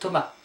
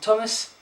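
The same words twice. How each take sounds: First: The final s is silent. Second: The final s is sounded. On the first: The speaker calls it right. "you don't pronounce the last letter" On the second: The speaker calls it wrong. "my name in French is not Thomas"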